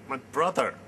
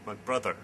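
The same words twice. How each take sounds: First: BROTHER louder, pushed out hard; emphatic outcry. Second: Said in the usual way. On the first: Acted. Speaker realising a brother will be lost, emphatic outcry on BROTHER. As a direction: burst out on the word brother.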